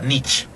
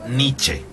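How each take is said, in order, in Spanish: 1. El nombre termina sin sonido de E final. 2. El nombre termina con un sonido de E final audible. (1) "no se pronuncia Nietzsche" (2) "se pronuncia Nietzsche, ... se pronuncia la E final"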